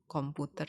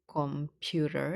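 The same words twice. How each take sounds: First: It is pronounced the Indonesian way. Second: It is pronounced the English way. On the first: "to become computer in Indonesian" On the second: "Computer in English"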